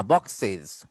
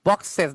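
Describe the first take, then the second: First: "বক্সেস" lower, said "box-siz"; iz ending. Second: "বক্সেস" with an open e, "box-ses"; wrong es ending. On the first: Teacher correcting the error, বক্সেস ending in siz. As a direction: end "বক্সেস" on a short i and z. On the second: Teacher showing the error, বক্সেস ending in ses. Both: Shown as a demonstration. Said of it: "বক্সেস না".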